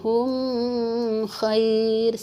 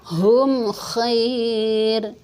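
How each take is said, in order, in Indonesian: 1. Bunyi m ditahan sebelum bunyi berikutnya. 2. Bunyi m dilepas dengan jelas tanpa ditahan.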